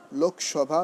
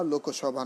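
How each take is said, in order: First: লোকসভা as lok-shobha, no linking o; correct pronunciation. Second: লোকসভা as loko-shobha, extra o after k; wrong pronunciation. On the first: Teacher giving an exception to the rule, correct pronunciation. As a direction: say লোকসভা with k straight into sh. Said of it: "লোকসভা নয়". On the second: Teacher showing students what to avoid, wrong pronunciation. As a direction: say লোকসভা with an added middle o. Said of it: "নয়". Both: Shown as a demonstration.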